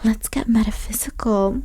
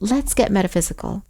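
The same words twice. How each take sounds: First: It is said in a low, sultry voice. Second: It is said in a plain, ordinary voice.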